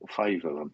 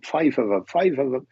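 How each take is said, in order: First: Said in the usual way. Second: Put-on half-hearted Irish accent; attempted Irish accent. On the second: Welsh medium repeats the spirit's detail, attempted Irish accent. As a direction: have a poor go at an Irish accent. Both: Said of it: "I can't put on an Irish accent".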